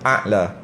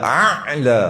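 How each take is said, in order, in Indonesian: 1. Bunyi tenggorokan di awal itu hanya sedikit diucapkan. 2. Bunyi tenggorokan di awal itu terlalu berlebihan. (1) "ain dia dibunyi sikit a'la, okey lah tu"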